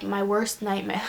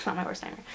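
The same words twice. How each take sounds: First: Said in the usual way. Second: Breathy laughing correction; laughing whisper. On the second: Real, not acted.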